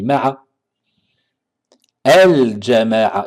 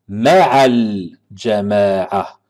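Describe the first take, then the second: First: A break after ma'a, then a glottal stop. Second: Linked smoothly as ma'al, with no glottal stop. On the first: The reader stopped and restarted at the second word. The speaker calls it wrong. "si on s'arrête ici, on dit ma'a el-jama'a, il faudra prononcer la hamza" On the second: The phrase is read continuously without stopping. The speaker calls it right. "on fait la liaison et la hamza ne se lit pas"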